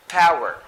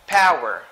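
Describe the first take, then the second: No difference in how they are said.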